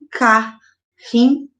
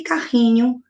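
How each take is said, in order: First: "carrinho" slowly broken as ca... rri... nho; split into syllables. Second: Said in the usual way. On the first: Shown as a demonstration. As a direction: pause between each syllable of "carrinho". Teacher demonstrates syllable separation.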